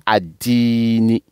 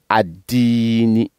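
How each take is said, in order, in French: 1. Le mot commence par une syllabe 'ad'. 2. Le mot commence par une syllabe 'ad'.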